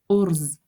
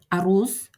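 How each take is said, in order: First: It is said as one short syllable. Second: It is said with two syllables. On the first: This is the everyday spoken form. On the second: This is the standard written form.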